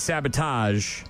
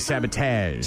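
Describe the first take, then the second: First: It is said in a plain, ordinary voice. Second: It is said in a put-on impression voice. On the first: "instead of saying sabotage" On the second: "Talk Like William Shatner Day"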